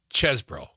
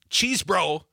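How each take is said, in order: First: The first syllable sounds like chess. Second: The first syllable sounds like cheese. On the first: The speaker calls it right. "It's Ches bro. ... the E's is like dessert" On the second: The speaker calls it wrong. "It's not cheese bro"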